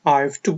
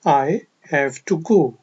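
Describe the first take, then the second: First: I have is contracted into one syllable. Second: I have is said in full, two words.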